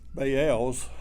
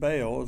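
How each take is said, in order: First: The word is said as two syllables. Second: The word is said as one syllable. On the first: The speaker calls it right. "It's actually Baals. It's, it's two syllables uh, in Hebrew" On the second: The speaker calls it wrong. "sometimes we pronounce it Baals"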